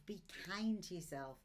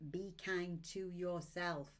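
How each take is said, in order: First: Said in the usual way. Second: Be kind to yourself said slowly, leaning on kind; slow, stress on kind. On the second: Shown as a demonstration. Reader repeating her golden rule to viewers, slowly with kind stressed. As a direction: draw out the word kind. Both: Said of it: "one of my golden rules".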